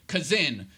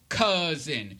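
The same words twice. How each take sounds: First: The stress is on the last syllable. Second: The stress is on the first syllable. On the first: The speaker calls it wrong. "You don't say cousin. ... whose own accents do fall on the last syllable" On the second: The speaker calls it right. "that accent is on the first syllable"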